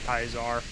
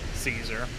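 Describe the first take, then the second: First: The word begins with a K sound. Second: The word begins with an S sound.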